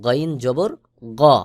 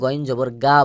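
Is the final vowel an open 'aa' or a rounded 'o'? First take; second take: rounded o; open aa. First: The final vowel is a rounded, 'o'-like sound. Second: The final vowel is an open, long 'aa'. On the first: The speaker calls it right. "সহি উচ্চারণ হলো গইন জবর গ" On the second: The speaker calls it wrong. "অনেকে গইন জবর গা বলে, এটা ভুল উচ্চারণ।"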